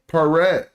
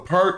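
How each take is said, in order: First: It is said as two syllables, pe-ret. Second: It is said as one syllable, pert. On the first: The speaker calls it right. "all consonants need to be separated by vowels" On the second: The speaker calls it wrong. "we read in English and we say pert"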